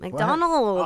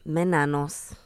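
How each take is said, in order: First: The name is said in its standard form. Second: The name is mangled, sounding like 'menanos'.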